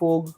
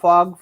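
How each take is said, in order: First: The vowel sounds like 'oh'. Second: The vowel sounds like 'ah'. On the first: The speaker calls it wrong. "कितने लोग फोग बोलते हैं" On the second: The speaker calls it right. "लफ्ज फाग है।"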